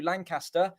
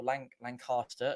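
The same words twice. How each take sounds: First: Lancaster with a short flat a, LAN-cass-ter; first way of saying it. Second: Lancaster with a long ah, LAN-cahs-ter; local way of saying it. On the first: Commentator reading the name, short flat a in Lancaster. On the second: Commentator corrects himself, saying Lancaster the local way. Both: Shown as a demonstration. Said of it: "as we would probably say".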